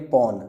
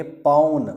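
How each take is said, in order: First: पौन said short, with a light single vowel; पौन with one short vowel; one-matra paun. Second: पौन said with a fuller, longer au vowel; two-matra paun. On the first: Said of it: "एक मात्रा होगी तो बोलेंगे पौन". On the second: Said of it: "दो मात्रा होंगी तो बोलेंगे पौन". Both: Shown as a demonstration.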